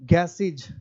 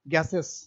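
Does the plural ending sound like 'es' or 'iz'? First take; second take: iz; es. First: The ending is pronounced like 'iz'. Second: The ending is pronounced like 'es'. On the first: This is how English people say it. "अंग्रेज को पढ़ेंगे" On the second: This is how we say it. "हम लोग पढ़ते हैं"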